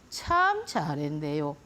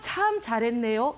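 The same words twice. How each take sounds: First: It is said as sarcastic, reproachful praise. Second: It is said as sincere, pleased praise.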